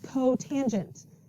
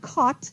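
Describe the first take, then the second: First: It is said as three full syllables. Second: It is said as one short syllable. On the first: The speaker calls it right. "It's cotangent" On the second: The speaker calls it wrong. "This is not cot"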